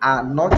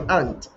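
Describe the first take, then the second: First: It is said as two full separate words. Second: It is shortened into one contracted syllable. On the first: "instead of saying are not" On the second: "you say aren't"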